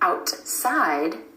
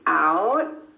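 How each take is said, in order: First: The T is fully released before the S. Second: The T is held, gliding straight into S. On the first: The speaker calls it wrong. "Instead of outside" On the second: The speaker calls it right. "The tongue stays up for the T and goes straight into the S sound"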